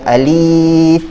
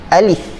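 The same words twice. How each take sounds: First: The vowel is drawn out long. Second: The vowel is said short. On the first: The speaker calls it wrong. "tidak baca dengan alif" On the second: The speaker calls it right. "alif ni kita baca dengan tidak ada harakat"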